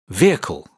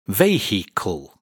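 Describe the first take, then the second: First: It is said with two syllables. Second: It is said with three syllables. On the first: The speaker calls it right. "this word is pronounced as a two-syllable word. The I in the middle is not pronounced" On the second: The speaker calls it wrong. "Many students pronounce this word with three syllables"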